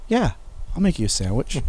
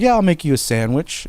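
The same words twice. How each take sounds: First: Understated, drawn-back yes with mischief behind it; sly agreement. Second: Higher-pitched, easy yes; lightly mimicked willing helper, pitched up; casual agreement. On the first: Retold or imitated. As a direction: imitate a brother agreeing with a secret plan. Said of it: "he'd get this look like". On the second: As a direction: imitate a brother breezily agreeing, nothing to suspect. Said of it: "'cause he's like".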